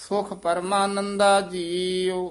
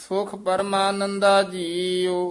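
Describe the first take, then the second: The two takes are said the same way.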